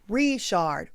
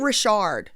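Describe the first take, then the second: First: The stress is on the first syllable. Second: The stress is on the second syllable. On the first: The speaker calls it right. "The emphasis is on the first syllable as well" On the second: The speaker calls it wrong. "it ain't Richard"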